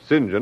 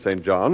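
First: The name is said the British way. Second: The name is said the plain American way.

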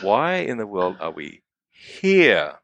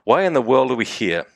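First: The word here is given extra stress. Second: No word is given special stress. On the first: "The words I'm emphasizing are here" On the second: "read them once as, you know, as indiscriminately as I can"

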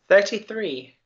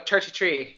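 First: It is said in the speaker's own non-Irish accent. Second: It is said imitating an Irish accent.

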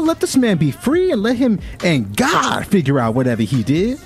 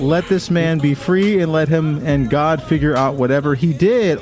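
First: It is said in a put-on auntie voice. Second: It is read in his normal voice.

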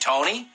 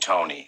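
First: It is asked, rising at the end. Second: It is exclaimed, falling at the end.

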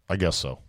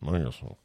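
First: It is said loudly and clearly. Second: It is said quietly and reluctantly.

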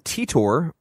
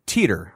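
First: The name ends with an 'or' sound. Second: The name ends with an 'er' sound. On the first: "Like O-R-E-R, the sound, not the spelling" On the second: "Like O-R-E-R, the sound, not the spelling"

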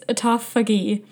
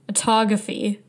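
First: The middle sounds like 'phag', with an f sound. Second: The middle sounds like 'graph', as in photography. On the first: The speaker calls it right. "I think it's autophagy" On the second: The speaker calls it wrong. "I kept saying autography, like photography"

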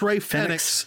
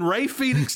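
First: The name is said in the newer pronunciation. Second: The name is said in the older pronunciation. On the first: This is the recently adopted version of the name. The speaker calls it wrong. "the new pronunciation of Rey Fénix. All of a sudden it's Rey Fénix" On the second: This is the long-established version of the name. The speaker calls it right. "It has been Rey Fénix to me for the better part of a decade"

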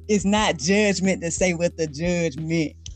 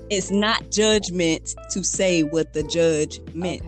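First: It is said at normal speed. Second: It is said slowly.

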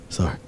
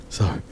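The two takes are said the same way.

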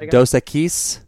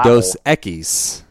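First: The stress falls on an unexpected syllable. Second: The stress falls on the expected syllable. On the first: The speaker calls it wrong. "Why are you saying it with the emphasis on the wrong syllable?" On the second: The speaker calls it right. "There you go"

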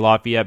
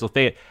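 First: It uses the usual general American pronunciation. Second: It uses the local Tennessee pronunciation.

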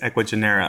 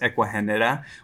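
First: The name is said with an American English pronunciation. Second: The name is said with a Spanish pronunciation. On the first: This is the name as Americans say it. "our American name is Ecuagenera" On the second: This is the name as it is really said. "That is how it's pronounced"

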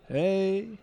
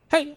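First: It is said low-pitched and drawn out. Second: It is said high-pitched and quick.

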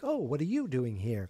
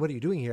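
First: It sounds pleasantly surprised and friendly. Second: It sounds accusing, as if she shouldn't be there.

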